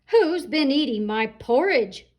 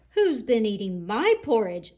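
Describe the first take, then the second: First: Louder, booming papa rhino; big roaring Daddy Rhino. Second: A mild mock shout, lightly voiced mama; medium-sized mama rhino, not too big. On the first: Acted. Daddy Rhino finding his porridge eaten, booming roar. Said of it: "roared Daddy Rhino in his great big voice". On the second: Mama Rhino finding her porridge touched, mild mock shout. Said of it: "shouted Mama Rhino in her medium-sized voice".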